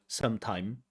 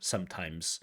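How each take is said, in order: First: The word ends without a final s sound. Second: The word ends with a final s sound. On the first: The speaker calls it wrong. "they don't get that final s. So you hear sometime" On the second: The speaker calls it right. "you don't hear sometimes"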